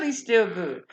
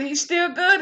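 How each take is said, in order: First: Said in the usual way. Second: He's still good lifted high and louder, rising at the end; rising praise. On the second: Real, not acted. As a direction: lift it up like a shout of praise. Preaching refrain, praising God.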